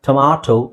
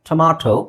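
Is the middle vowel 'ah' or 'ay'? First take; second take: ah; ah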